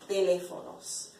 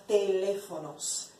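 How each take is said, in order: Both takes have the same delivery.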